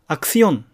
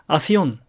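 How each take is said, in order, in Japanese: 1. 「s」の前の「k」は発音されます。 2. 「s」の前の「k」は落ちます。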